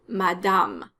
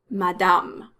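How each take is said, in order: Both takes have the same delivery.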